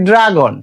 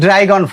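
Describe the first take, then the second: First: The first vowel is a plain 'a'. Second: The first vowel is the diphthong 'ai'. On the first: The speaker calls it right. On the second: The speaker calls it wrong.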